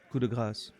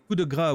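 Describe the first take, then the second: First: The final s sound of the last word is pronounced. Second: The final s sound of the last word is silent. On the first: The final merciful blow. The speaker calls it right. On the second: The word means fat. The speaker calls it wrong.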